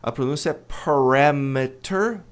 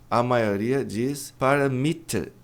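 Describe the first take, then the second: First: The stress is on the second syllable. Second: The stress is not on the second syllable. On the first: The speaker calls it right. "A tônica está no R A" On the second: The speaker calls it wrong.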